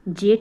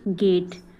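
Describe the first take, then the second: First: The word begins with a j sound. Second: The word begins with a hard g sound. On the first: The speaker calls it wrong. "जेट ना बोल के" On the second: The speaker calls it right. "ना बोल के गेट"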